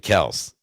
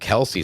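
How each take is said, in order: First: The name has one syllable, ending in s. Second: The name has two syllables, ending in ee. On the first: This is claimed to be the real pronunciation. The speaker calls it right. "It's actually Kels" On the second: This is how people commonly say the name. The speaker calls it wrong. "Everybody's been calling him Kelsey"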